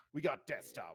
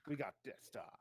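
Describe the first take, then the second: First: Loud, punchy delivery on got. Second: Said in the usual way. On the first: Acted. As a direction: bark it out with weight on got. Same line said three ways.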